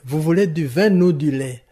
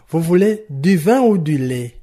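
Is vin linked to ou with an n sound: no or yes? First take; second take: yes; no. First: Vin is linked to ou with an n sound. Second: Vin and ou are said separately, with no linking. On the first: The speaker calls it wrong. "Je ne peux pas dire, ... Ce serait fantaisiste et un peu mal placé" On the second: The speaker calls it right. "ne mettra pas de liaison. Exemple"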